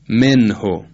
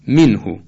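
First: The first vowel is an open, e-like sound. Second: The first vowel is a close, i-like sound. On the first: The speaker calls it wrong. "یک کسره فارسی تلفظ کردیم نه کسره عربی ... نه این درست نیست" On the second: The speaker calls it right. "تلفظ دقیق عربی این کلمه ... همینطورست که عرض میکنم"

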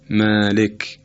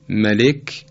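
First: The vowel after m is drawn out long. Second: The vowel after m is short.

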